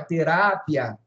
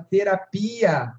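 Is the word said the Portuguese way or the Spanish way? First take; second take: Spanish; Portuguese. First: It is said with the Spanish stress pattern. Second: It is said with the Portuguese stress pattern. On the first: "em espanhol é terapia, mudou a sílaba tônica" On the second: "olha como eu falei a palavra terapia"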